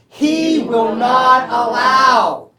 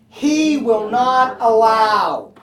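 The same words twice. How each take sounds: First: It is said firmly, with strong confidence. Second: It is said plainly, without strong confidence. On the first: "One more time with confidence" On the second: "Say that with me"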